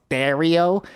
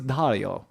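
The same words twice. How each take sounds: First: The A is squeezed in a Buffalo accent. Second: The A is open and standard.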